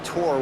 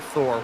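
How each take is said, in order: First: The name begins with a plain t sound. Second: The name begins with a th sound. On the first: The speaker calls it right. "my name's actually Tor when it's spelled out as Thor" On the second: The speaker calls it wrong. "I called him Thor, which I feel like is a more mighty name"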